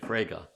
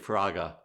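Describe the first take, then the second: First: The name is said with an American pronunciation. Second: The name is said with a Spanish pronunciation. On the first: It is the family's assimilated everyday form. "the Americanized version" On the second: It reflects a reconnection with Mexican heritage. "Since I've been using more Spanish and visits to Mexico, I say Fraga"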